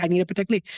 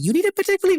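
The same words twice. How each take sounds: First: Said in the usual way. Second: "You need a Patek Philippe?" jumps much higher and louder, rising at "Philippe"; retold gasp of disbelief at the request; shocked echo. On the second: Echoing client's request in shock.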